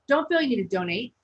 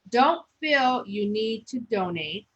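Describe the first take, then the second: First: It is read with lively, varied emphasis. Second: It is read in a flat, monotone voice. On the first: The speaker calls it right. "put some um emphasis behind things" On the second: The speaker calls it wrong. "You don't want to be so monotone"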